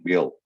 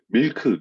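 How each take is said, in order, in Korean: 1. 미국 영어 소리로 발음되어 있습니다. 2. 한국식 음절로 발음되어 있습니다. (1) "milk 그래야지 알아듣는 거지" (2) "밀크에도 못 알아듣습니다"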